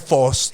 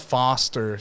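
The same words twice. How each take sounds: First: The first vowel sounds like 'o'. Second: The first vowel sounds like 'ah'. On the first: This is how people at home say it. "Ba tayo foster?" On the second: This is how people abroad say it. "So sabi na"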